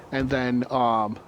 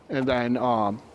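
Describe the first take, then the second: No difference in how they are said.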